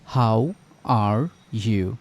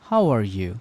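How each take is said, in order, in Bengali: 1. বাক্যটি ধীরে বলা হয়েছে। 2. বাক্যটি দ্রুত বলা হয়েছে। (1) "প্রথমে ধীরে ধীরে" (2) "আমরা ফাস্ট হই"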